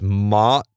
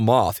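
First: The word ends with a 't' sound. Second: The word ends with a 'th' sound. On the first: "It's mot" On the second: "there is no moth"

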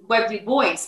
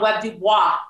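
First: The surname is said with an English pronunciation. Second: The surname is said with a French pronunciation. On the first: This is how the man himself said his name. The speaker calls it right. "he is Webb Du Bois" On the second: This is a Frenchified version of the name. The speaker calls it wrong. "everybody wanted to call him Webb Du Bois. That's not French"

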